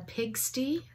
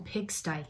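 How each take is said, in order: First: The final y is not said as 'eye'. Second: The final y is said as 'eye'. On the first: The speaker calls it wrong. "it was pronounced wrong" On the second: The speaker calls it right. "I, oh, pigsty. Yes, it's pigsty"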